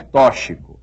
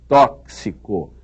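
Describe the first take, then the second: First: The x is not sounded as 'ks'. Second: The x is sounded as 'ks'. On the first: The speaker calls it wrong. "não é tóxico" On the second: The speaker calls it right. "é tóxico ... como se houvesse aí um C e um S"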